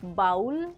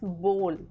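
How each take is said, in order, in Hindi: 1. इस स्वर की ध्वनि 'hole' जैसी नहीं है। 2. इस स्वर की ध्वनि 'hole' जैसी है। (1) "is not bowl" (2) "but it's bowl. Like B O L E"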